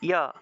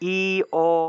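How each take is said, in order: First: The two vowels blend into one smooth sound. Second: The two vowels are said apart, one by one. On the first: The speaker calls it right. "ই এবং ওটাকে একসাথে উচ্চারণ করতে হবে" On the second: The speaker calls it wrong. "ই ও এইভাবে উচ্চারণ করলে হবে না"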